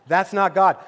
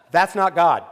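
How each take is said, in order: First: "God" hit hard and loud at the end; stress on God. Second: "not" hit hard and loud, falling after; stress on not. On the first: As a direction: pastor repeats it, now landing on God. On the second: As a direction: pastor to the congregation, punching the word not. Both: Shown as a demonstration.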